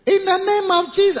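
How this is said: The voice is soft, light and mild. The voice sounds like it does not cast out devils. "that type of voice doesn't cast out devils"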